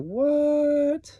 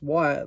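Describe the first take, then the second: First: The word is said with shocked disbelief. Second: The word is said as a neutral question. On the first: Are you serious? "are you serious? ... it's kind of shocking" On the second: It asks about something. "just what, like in a question format"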